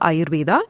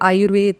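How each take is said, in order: First: The word ends with a final 'a' vowel. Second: The word ends on a consonant, no final vowel. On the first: This is the southern and original pronunciation. "in south of India where Ayurveda was born it was called" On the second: This is the northern pronunciation. "In north of India, A has been cancelled everywhere"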